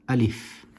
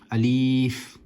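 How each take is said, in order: First: The word is said sharply without stretching. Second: The word is said with a stretched sound. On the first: The speaker calls it right. "pronounced nice and sharply without stretching any letters" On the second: The speaker calls it wrong. "Some people like to pronounce it as alif, and that is incorrect"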